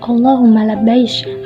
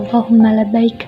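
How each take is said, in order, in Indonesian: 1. Kata terakhir berakhir dengan bunyi sh. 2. Kata terakhir berakhir dengan bunyi k. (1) "ada yang mengatakan" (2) "maksudnya adalah"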